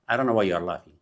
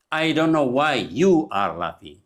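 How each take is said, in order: First: Said in the usual way. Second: YOU drawn out long and loud in a very slow sentence; slow teaching model, leaning hard on "you"; stress on YOU. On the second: Shown as a demonstration. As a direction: stretch and punch "you" before "are". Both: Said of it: "We don't say".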